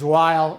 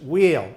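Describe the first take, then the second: First: The vowel sounds like 'eye', as in while. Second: The vowel sounds like 'ee', as in wheel. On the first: This is how it is said on the German side. "it's the German pronunciation, which is while" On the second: This is how it is said on the French side. "you have the French pronunciation, which is wheel"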